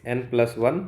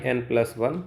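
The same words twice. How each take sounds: The two takes are said the same way.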